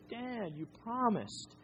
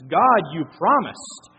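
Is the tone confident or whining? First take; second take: whining; confident. First: It is said in a whining tone. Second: It is said as a confident shout.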